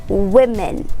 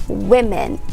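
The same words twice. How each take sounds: No difference in how they are said.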